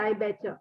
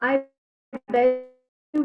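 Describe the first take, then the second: First: Bet and you blend into one 'betcha' sound. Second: Bet and you are said as separate words. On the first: "they say I betcha" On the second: "I bet you we say"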